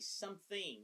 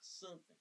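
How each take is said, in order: First: The word is said in a careful, standard way. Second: The word is said in a rough, rural-sounding way. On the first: The speaker calls it right. "you should say something" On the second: The speaker calls it wrong. "not something. Make it sound like an illiterate hick"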